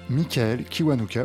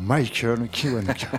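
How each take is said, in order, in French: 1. Le nom se prononce avec un accent français. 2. Le nom se prononce avec un accent anglais. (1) "À la française" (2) "voire à l'anglaise"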